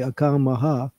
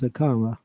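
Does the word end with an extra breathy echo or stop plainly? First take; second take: breathy echo; plain stop. First: The ending is held with a breathy echo. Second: The ending stops plainly without a breathy echo. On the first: The speaker calls it wrong. "So if you say akamaha, that's wrong" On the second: The speaker calls it right. "It's akama"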